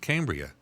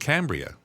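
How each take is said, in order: First: The name is said the outsider way. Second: The name is said the local way. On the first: The speaker is not from the area. "If you don't, it's probably going to be pronounced Cambria" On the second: The speaker is from the area. "From there, you live in Cambria"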